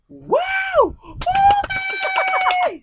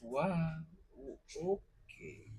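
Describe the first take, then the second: First: It sounds happy. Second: It sounds sad.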